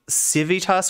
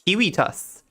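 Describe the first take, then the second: First: It begins with S, with V in the middle. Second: It begins with K, with W in the middle. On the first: "like Civitas would be" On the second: "he pronounced his V's like W"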